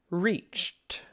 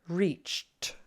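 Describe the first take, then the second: No difference in how they are said.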